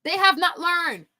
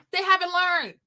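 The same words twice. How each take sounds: First: Slow, with HAVE and NOT each pressed apart; slow emphatic repeat. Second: Said in the usual way. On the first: Real, not acted. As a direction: spell out "They have not learned" word by word. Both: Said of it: "I've said that in my other video".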